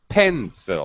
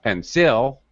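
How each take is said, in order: First: The stress is on the first syllable. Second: The stress is on the second syllable. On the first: The speaker calls it right. "First syllable stress" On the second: The speaker calls it wrong. "not pencil. Wrong"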